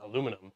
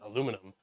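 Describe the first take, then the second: First: The word is said with four syllables. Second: The word is said with four syllables.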